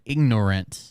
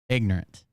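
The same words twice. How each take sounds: First: All of the word's syllables are clearly pronounced. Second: Part of the word is dropped in a Southern way. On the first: The speaker calls it right. "it should be said ignorant" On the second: The speaker calls it wrong. "everybody in the South says it wrong"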